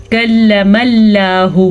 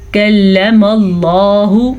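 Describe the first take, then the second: First: کلم اللہ with a thin lām in اللہ; thin Allah. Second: کلم اللہ with a full, heavy lām in اللہ; heavy Allah. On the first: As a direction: say اللہ lightly, unrounded. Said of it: "یہ ہم نے غلط پڑھا ہے". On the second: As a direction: round the lips for a thick اللہ. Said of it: "تجوید کا حق ادا کر دیا". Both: Shown as a demonstration.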